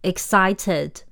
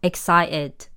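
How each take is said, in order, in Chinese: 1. t 音要发出来。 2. t 音不发。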